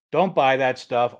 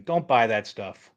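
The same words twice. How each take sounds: First: Slow and firm, Don't punched harder; warning a viewer off buying tools, slow and emphatic; emphatic repeat. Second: Said in the usual way. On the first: Real, not acted. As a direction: hammer home Don't, slowly.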